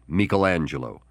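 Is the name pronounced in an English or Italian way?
Italian. The name is said with Italian pronunciation. The speaker calls it right.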